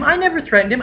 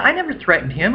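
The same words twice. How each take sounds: First: Much higher, rising mock whine with stress on never; mock shrill denial. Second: Higher, whining imitation of the roommate; a hint of a sulky liar; mock whiny denial. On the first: Narrator mimicking roommate repeating denial, higher mock whine. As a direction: push it up into an indignant squeak. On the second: Narrator imitating roommate denying the threat, whiny.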